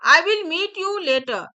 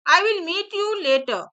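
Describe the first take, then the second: The two takes are said the same way.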